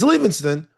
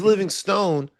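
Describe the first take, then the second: First: The last syllable sounds like 'stun'. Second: The last syllable sounds like 'stone'. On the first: This is the name's actual pronunciation. "It's Livingston" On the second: He is as solid as a rock. "here on Ringer Tailgate is Livingstone because he's just so solid"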